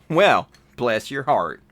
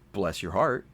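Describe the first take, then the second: First: It sounds snide and sarcastic. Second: It sounds kind and sincere.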